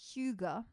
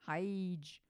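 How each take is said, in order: First: It starts with 'hoo', like hoo-ga. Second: It starts with 'high', like hygiene. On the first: The speaker calls it right. "But no, it's Huga" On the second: The speaker calls it wrong. "I thought you pronounced it Hyge, like hygiene"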